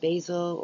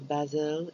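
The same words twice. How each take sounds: First: It is said with an American pronunciation. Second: It is said with a British pronunciation.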